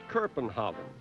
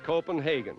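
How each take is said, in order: First: The name is pronounced the Danish way. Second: The name is pronounced the English way. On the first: "the Danes now call it" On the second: "in English it's"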